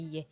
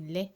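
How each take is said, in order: First: The word begins with a Y sound. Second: The word begins with an L sound. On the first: The speaker calls it wrong. "ça sortait yé" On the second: The speaker calls it right. "au lieu de lait"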